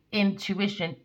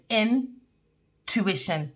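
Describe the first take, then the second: First: Said in the usual way. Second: "intuition" drawn out very slowly as "in-tuition"; slow split word. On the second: Shown as a demonstration. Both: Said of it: "two words".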